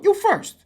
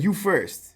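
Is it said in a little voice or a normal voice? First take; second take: little; normal. First: It is said in a small, little voice. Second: It is said in the speaker's normal voice.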